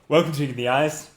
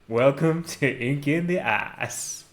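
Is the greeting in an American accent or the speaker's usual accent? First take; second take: usual; American. First: It is said in the speaker's usual accent. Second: It is said in a put-on American accent.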